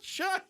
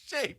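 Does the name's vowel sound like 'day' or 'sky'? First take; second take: sky; day. First: The name is said with the vowel of 'sky'. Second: The name is said with the vowel of 'day'. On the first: The speaker calls it wrong. "He's not shy" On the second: The speaker calls it right. "He's Shea"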